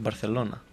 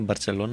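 First: The consonant before 'elona' is a 'th' sound. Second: The consonant before 'elona' is a 'ts' sound. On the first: The speaker calls it right. "είναι Μπαρθελόνα. Κανονικά" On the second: The speaker calls it wrong. "δεν είναι Μπαρτσελόνα"

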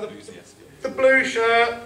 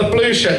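First: It is said in a put-on woman's voice. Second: It is said in his normal voice.

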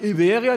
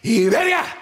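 First: It is said with a flat German pronunciation. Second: It is said with a lively native Spanish pronunciation. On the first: "Aber der Muttersprachler sagt nicht Iberia" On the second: "der sagt Iberia"

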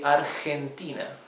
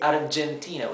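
First: The G is a harsh, throaty sound. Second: The G is a soft, non-throaty sound. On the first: The speaker calls it right. "As if you were scratching your throat" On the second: The speaker calls it wrong. "we don't say Argentina"

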